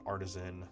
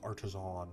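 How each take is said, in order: First: The last syllable has a weak vowel, 'san'. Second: The last syllable has an 'o' vowel, 'zon'. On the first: The speaker calls it wrong. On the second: The speaker calls it right. "That is an O"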